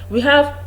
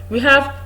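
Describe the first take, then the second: Both takes have the same delivery.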